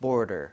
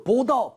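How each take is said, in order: First: "border" with the D relaxed into a quick ㄹ-like flap; soft, quick D. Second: "border" as bo-deo, with a hard D. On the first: Teacher models for the student, soft flapped D in "border". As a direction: say "border" lower, D barely tapped. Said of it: "빠르게 내주시고 힘을 좀 빼고". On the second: Teacher warns against this take, hard D in "border". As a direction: say "border" with a firm, distinct D. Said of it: "border 이렇게 하지 않고요". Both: Shown as a demonstration.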